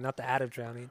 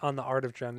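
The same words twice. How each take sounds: First: "Art" as "at", Boston r-less vowel; Boston accent. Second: Said in the usual way. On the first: Real, not acted. Correcting own slip on album title, Boston accent. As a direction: drop the r in "Art", Boston style. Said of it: "fucking Boston over here".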